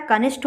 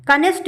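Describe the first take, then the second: First: कनिष्ठ ending in aspirated ṭh; correct pronunciation. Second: कनिष्ठ ending in unaspirated ṭ; wrong pronunciation. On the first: Teacher gives the right ending, aspirated ṭh. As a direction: puff air on the last sound of कनिष्ठ. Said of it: "टा और ठा में यही difference". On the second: Teacher shows the wrong ending, unaspirated ṭ. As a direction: drop the breath from the ṭh of कनिष्ठ. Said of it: "कनिष्ठ नहीं होता है". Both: Shown as a demonstration.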